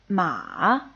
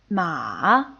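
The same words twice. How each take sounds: Both takes have the same delivery.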